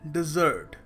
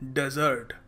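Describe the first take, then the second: First: It sounds like the word dessert. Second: It sounds like the word desert. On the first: It names a sweet dish after a meal. The speaker calls it right. "ये कुछ मीठी चीज होती है" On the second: It names a sandy wasteland. The speaker calls it wrong. "मगर लोग क्या कहते हैं? ... डेजर्ट होता है रेगिस्तान"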